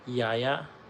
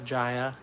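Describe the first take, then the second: First: The name begins with a Y sound. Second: The name begins with a J sound.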